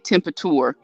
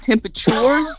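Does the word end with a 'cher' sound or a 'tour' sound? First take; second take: tour; cher. First: The ending is said like the word 'tour'. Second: The ending is said with a usual 'cher' sound. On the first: "I say temperature" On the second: "instead of saying temperatures"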